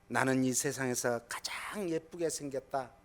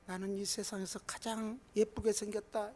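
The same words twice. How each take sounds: First: It is said in a normal, clear voice. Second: It is said in a tiny, faint voice.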